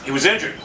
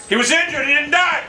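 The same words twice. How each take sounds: First: Said in the usual way. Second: High-pitched, indignant outcry; indignant protest. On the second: Real, not acted. Gamer whose injured target didn't die, indignant protest. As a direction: protest it in raised disbelief.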